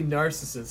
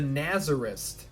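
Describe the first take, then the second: First: The word is pronounced like 'narcissist'. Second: The word is pronounced like 'nazarist'. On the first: The speaker calls it right. "it's actually narcissist" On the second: The speaker calls it wrong. "that's how my brother pronounced it"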